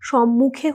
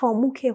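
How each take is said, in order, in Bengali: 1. শব্দটির উচ্চারণ ঠিক আছে, বিকৃত নয়। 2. শব্দটির উচ্চারণ বিকৃত, পরিবর্তিত। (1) "সম্মুখে হলো সঠিক উচ্চারণ" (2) "সম্মুখে হলো ভুল উচ্চারণ"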